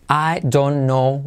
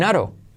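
First: Each word is pronounced fully and separately. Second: The words blend into one short reduced word. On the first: "pronunciando bien las letras y palabras, nadie diría" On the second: "I don't know se convierte en aro"

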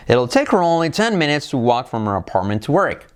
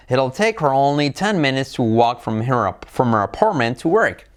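First: The sentence is spoken at a fast speed. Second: The sentence is spoken at a normal speed. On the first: "Más deprisa" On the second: "A velocidad normal"

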